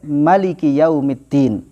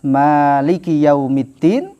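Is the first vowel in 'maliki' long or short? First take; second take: short; long. First: The first vowel of maliki is kept short. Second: The first vowel of maliki is held long. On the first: It means the king. "Yang kedua dibaca dengan pendek" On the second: It means the one who owns. "Yang pertama dibaca dengan mat"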